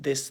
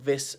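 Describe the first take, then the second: First: It starts with a th made between the teeth. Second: It starts with a replacement sound, not th. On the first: The speaker calls it right. "putting your tongue in front of your teeth" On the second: The speaker calls it wrong. "Londoners speaking Cockney ... can't pronounce the th ... they're saying"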